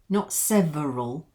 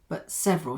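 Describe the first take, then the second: First: The middle vowel is pronounced fully. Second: The middle vowel is reduced or dropped. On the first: The speaker calls it wrong. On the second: The speaker calls it right. "So let's just take the E out"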